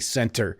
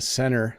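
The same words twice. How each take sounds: First: The t in center is clearly pronounced. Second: The t in center is dropped. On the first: The speaker is speaking carefully, as in class. "I want to pronounce it correctly" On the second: The speaker is speaking quickly and casually. "when I speak quickly"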